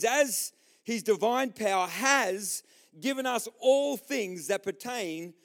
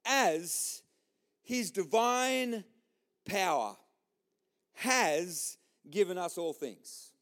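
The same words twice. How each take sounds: First: Measured, emphatic Bible reading; scripture reading. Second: Word by word, long pauses between; very slow, weighty Bible quote; powerful statement. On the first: Preacher reading to the church, declamatory. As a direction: read it out in a slow, continuous phrase. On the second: Preacher repeating the verse to the church, deliberate. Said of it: "he says this incredibly powerful statement". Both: Shown as a demonstration.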